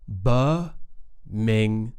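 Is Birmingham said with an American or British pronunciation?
British. It is said with a British pronunciation. The speaker calls it right. "but we say Birmingham"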